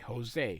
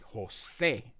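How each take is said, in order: First: The stress is on the first syllable. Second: The stress is on the second syllable. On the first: The speaker calls it wrong. "most people in English say Jose" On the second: The speaker calls it right. "it's actually Jose, and you can see there's an emphasis"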